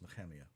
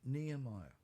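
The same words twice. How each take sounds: First: The name is said the Hebrew way. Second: The name is said the usual English way. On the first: The speaker calls it right. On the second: The speaker calls it wrong.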